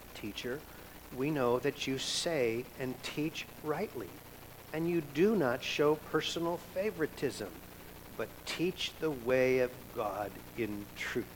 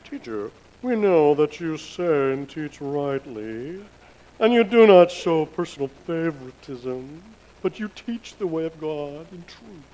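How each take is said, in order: First: It is read in a plain, undramatic way. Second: It is read in a dramatic, flattering way.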